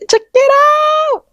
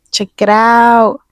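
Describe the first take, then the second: First: Much higher, loud and slow, excited shout. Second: Said in the usual way. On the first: Real, not acted. Showing her new piercing to viewers, excited high shout. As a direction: belt it out like showing off a prize.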